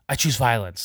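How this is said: It is said in a firm, resolute voice. The speaker is fully determined. "she said it with a lot of resolute, like, ... really resolute"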